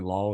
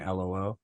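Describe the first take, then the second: First: "lol" in one syllable, rhyming with doll; "lol" run together as one word. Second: "L O L" as three named letters; "L O L" read out as initials; spelled-out LOL. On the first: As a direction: say "lol" as a word, not as letters. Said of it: "instead of saying lol". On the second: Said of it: "she was saying L O L". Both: Shown as a demonstration.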